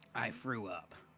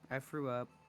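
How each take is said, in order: First: It is said in a deep, gruff character voice. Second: It is said in a lighter character voice. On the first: The speaker calls it wrong. "not the Master Chief" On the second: The speaker calls it right. "In the Naomi voice"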